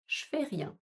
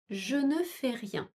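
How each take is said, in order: First: The word 'ne' is dropped before the verb. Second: The word 'ne' is said before the verb. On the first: This is the everyday spoken form. "À l'oral" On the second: This is the written, formal form. "À l'écrit"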